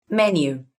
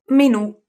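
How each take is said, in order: First: Menu as MEN-yoo, falling after the first syllable; English stress on first syllable. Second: Menù as me-NÙ, the last syllable higher and louder; Italian stress on final syllable. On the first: Teacher repeats the translation for learners, first-stressed English Menu. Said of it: "in English you say menu". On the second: Teacher repeats the Italian word for learners, final-stressed Menù. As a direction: land hard on the NÙ of Menù. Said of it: "in Italian you say menù". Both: Shown as a demonstration.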